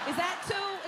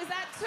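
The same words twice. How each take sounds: First: Incredulous question. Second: Mock shout. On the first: Acted. Mocking parents' age in months. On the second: Repeats it, shouting.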